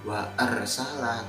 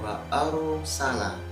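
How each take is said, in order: First: The ra is thin, without rounded lips. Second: The ra is heavy, with rounded lips. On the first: The speaker calls it wrong. "Bukan seperti ini" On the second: The speaker calls it right. "itu membacanya wa arsala"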